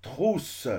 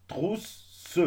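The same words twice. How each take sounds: First: Said in the usual way. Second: "Trousse" cut into trous-se, higher pitched; double S split. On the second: Shown as a demonstration. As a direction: split "Trousse" between the two s sounds. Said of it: "قسمناهم". (« Trousse » découpé en trous-se, s séparés)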